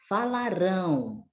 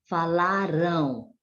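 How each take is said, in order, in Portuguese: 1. A sílaba tônica cai na última sílaba. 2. A sílaba tônica cai na sílaba do meio. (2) "no passado"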